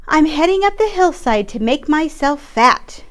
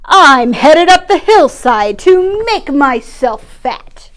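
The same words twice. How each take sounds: First: Higher little goat voice; lightly voiced goat going uphill; small goat, higher pitch. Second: Slow, loud, big goat voice; slow, loud, proud goat; biggest goat. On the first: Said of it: "the second billy goat bleated". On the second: Acted. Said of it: "the biggest billy goat announced".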